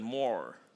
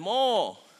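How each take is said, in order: First: It is said in an American accent. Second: It is said in an Australian accent.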